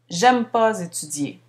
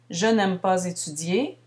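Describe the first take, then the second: First: The negative ne is left out entirely. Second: The negative ne is heard before the verb. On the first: "à l'oral, ça donne" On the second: "comme ici"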